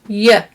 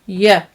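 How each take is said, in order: First: The word has a reduced, weak vowel. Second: The word has a reduced, weak vowel.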